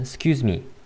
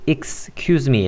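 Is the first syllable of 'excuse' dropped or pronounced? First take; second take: dropped; pronounced. First: It is said quickly with the first syllable dropped. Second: It is said slowly with the first syllable pronounced. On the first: "그냥 빨리 발음하게 되면 excuse me 라고 해서 x는 발음하지 않게 될 수도" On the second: "excuse me 라고 발음을 해도 되지만"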